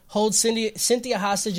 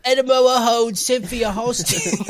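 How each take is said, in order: First: Said in the usual way. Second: Slow, hammy made-up accent with dropped Ls; unidentifiable accent. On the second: Shown as a demonstration. Host mocking own slip in the recap, unidentifiable accent. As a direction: put on a silly accent of no known place. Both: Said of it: "I don't know what accent that is".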